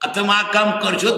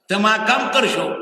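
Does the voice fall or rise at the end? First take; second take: rise; fall. First: The voice rises at the end like a question. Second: The voice falls at the end like a statement. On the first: It asks whether the listener will do the work. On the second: It states that the listener will do the work.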